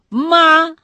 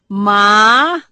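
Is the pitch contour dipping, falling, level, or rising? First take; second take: level; rising. First: The pitch stays high and level. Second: The pitch rises from mid to high. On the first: It means mother. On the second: It means hemp.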